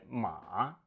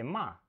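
First: The syllable is said with the third tone. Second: The syllable is said with the fourth tone. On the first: It means horse. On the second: It means to scold someone.

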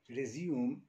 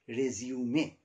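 First: It is pronounced as the verb form. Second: It is pronounced as the noun form. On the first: It means to begin or start again. "when it is used as verb" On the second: It means a CV or biodata. "for your CV, it must be pronounced as resume"

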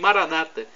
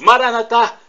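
First: The stress is on the second-to-last syllable. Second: The stress is not on the second-to-last syllable.

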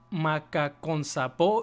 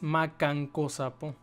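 First: The name begins with the sounds 'macacon'. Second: The name begins with the sounds 'macanco'. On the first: The speaker calls it wrong. "creo que dije" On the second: The speaker calls it right. "y es"

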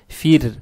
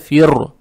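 First: The r sound is pronounced soft. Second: The r sound is pronounced hard. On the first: The speaker calls it right. "ра читается мягко, то есть фир" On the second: The speaker calls it wrong. "Не надо фир читать, это ошибка"

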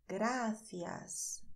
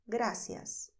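First: The middle consonant is a th sound. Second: The middle consonant is an s sound. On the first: This is the typical pronunciation of Spain. "o som da língua entre os dentes" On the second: This is the typical pronunciation of the Americas. "não se usa esse som"

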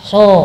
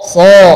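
First: The s sound is thin and flat. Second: The s sound is thick and heavy. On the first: The speaker calls it wrong. "oh bukan" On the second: The speaker calls it right. "Tinggal nebalin. ... ah ini dapat"

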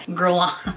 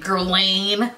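First: The name is said with a French-style accent. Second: The name is said with an American accent. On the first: "It's probably wrong too" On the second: "like such a fucking American piece of shit"

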